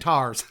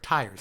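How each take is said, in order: First: The word is said as 'tars'. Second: The word is said as 'tires'. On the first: The speaker calls it wrong. "I don't say tars. I know many many people who do say tars" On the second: The speaker calls it right. "I say tires. Tires is the correct way to say that word"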